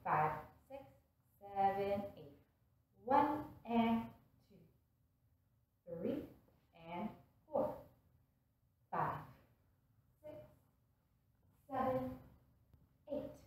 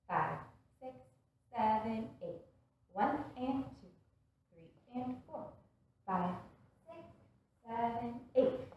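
First: The counting is said slowly. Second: The counting is said quickly.

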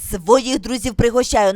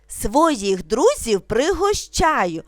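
First: It is spoken very quickly. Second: It is spoken slowly and calmly. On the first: "дуже швидко" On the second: "вимовляти спокійно, не спіша"

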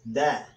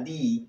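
First: The vowel is a short 'uh' sound. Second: The vowel is a long 'ee' sound. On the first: The next word begins with a consonant. "Y cuando la palabra que sigue es con consonantes, da" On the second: The next word begins with a vowel. "La primera manera, di, es cuando la palabra que sigue comienza con vocal"

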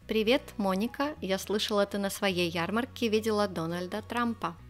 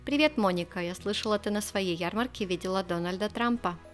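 First: It is said at a slower pace. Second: It is said at a faster pace.

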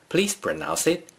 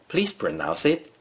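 Both takes have the same delivery.

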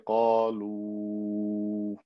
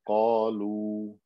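First: The final vowel is stretched long. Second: The final vowel is short. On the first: The word is joined to the next word. The speaker calls it wrong. "I wouldn't say qalu" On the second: The reciter stops on the word. The speaker calls it right. "if I just stopped and said qalu"

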